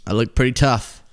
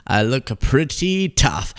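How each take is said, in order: First: Said in the usual way. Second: Slow, drawn-out PRETTY TOUGH; mock tough. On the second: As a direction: stretch out "pretty tough" word by word in mock swagger. Repeats the pose with emphasis.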